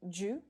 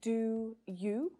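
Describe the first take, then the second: First: The two words merge into one short syllable. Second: Both words are said fully and separately. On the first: "reduce do you to ju" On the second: "we can definitely reduce do you to ju"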